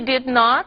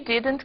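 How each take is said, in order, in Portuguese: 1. É falado como duas palavras completas separadas. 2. É falado como uma palavra contraída. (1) "O did not, se for pronunciado assim, é enfático" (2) "falados numa comunicação informal, cotidiana, fluida"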